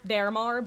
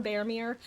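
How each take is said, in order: First: Baramar said with a final "mar" like "car"; Baramar, ending in an open ar; trying Baramar. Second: Baramir said with a final "meer"; Baramir, ending rhymes with beer; trying Baramir. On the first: Weighing the name aloud, saying Baramar. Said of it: "I've been calling him Baramir". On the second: Choosing his usual name, saying Baramir. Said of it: "I'm gonna just keep going with Baramir". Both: Shown as a demonstration.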